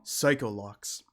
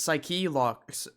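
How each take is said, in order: First: The first part sounds like "psycho". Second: The first part sounds like "psyche". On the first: The speaker calls it wrong. "Edgeworth is just saying it wrong" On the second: The speaker calls it right. "It's Psyche locks, Edgeworth, not Psycho"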